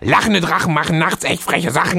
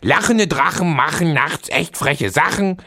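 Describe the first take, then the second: First: It is said noticeably faster. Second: It is said at a normal pace.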